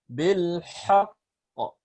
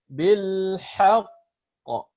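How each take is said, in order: Both takes have the same delivery.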